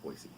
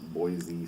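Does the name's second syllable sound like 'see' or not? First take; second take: like 'see'; not 'see'. First: The second syllable sounds like 'see'. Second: The second syllable does not sound like 'see'. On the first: The speaker calls it right. "Boy, see like Boys to Men, but Boise" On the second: The speaker calls it wrong. "It's not Boise State"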